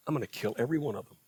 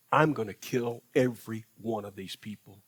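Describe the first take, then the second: First: Quick, low, dropped repeat of the threat; rushed repeat. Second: A hint of a grave divine voice, lower; God warns Moses he will destroy everyone, lightly voiced low; stern God, low and measured. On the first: Retold or imitated. God repeats the threat to Moses, fast and low. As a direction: hurry through it lower and quieter. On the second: God tells Moses of judgment, low and measured.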